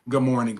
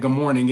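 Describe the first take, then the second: First: It is said at a slightly lower pitch. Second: It is said at a normal, higher pitch.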